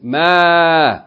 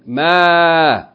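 First: The vowel is drawn out and long. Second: The vowel is drawn out and long.

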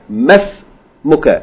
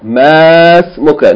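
First: The first vowel is kept short. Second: The first vowel is held long. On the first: The speaker calls it right. "as though it was just a short vowel" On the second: The speaker calls it wrong. "don't try to pronounce it long"

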